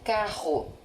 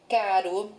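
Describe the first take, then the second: First: Carro with a strong throaty RR; RR forte. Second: Caro with a light tapped R; R simples. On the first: ("carro" com RR forte, aspirado na garganta) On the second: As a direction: say caro with a single flick of the tongue. ("caro" com R brando, vibrado leve) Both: Shown as a demonstration. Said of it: "Acrescente a letra R".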